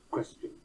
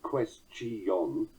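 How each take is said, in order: First: "question" in two syllables, QUES-chun; normal QUESTION. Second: "question" in three syllables, quest-i-ON; mispronounced QUESTION. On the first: Shown as a demonstration. Lecturer correcting the actor's version, "question" in two syllables. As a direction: say "question" with stress first, quick weak "chun". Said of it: "It's certainly question". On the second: Acted. Lecturer mimicking a laughable actor, "question" as three syllables quest-i-on. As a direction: stretch "question" out, sounding a separate "ee-on". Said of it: "Any actor who said question".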